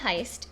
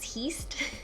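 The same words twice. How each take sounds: First: The vowel sounds like the 'eye' in high. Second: The vowel sounds like the 'ee' in yeast. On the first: The speaker calls it right. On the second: The speaker calls it wrong.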